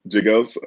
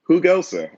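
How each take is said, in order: First: The name begins with an English J sound. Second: The name begins with an H sound. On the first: The speaker calls it wrong. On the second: The speaker calls it right.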